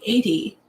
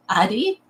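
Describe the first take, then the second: First: "eighty" opening on an AY vowel; long-A pronunciation. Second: Questioning "Addie", short A and rising end; short-A pronunciation. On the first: Streamer unsure of a viewer's name, "eighty" with long A. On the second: Streamer checking a viewer's name, "Addie" with short A. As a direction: say "Addie" with the A of "cat". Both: Shown as a demonstration. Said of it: "the pronunciation of your name".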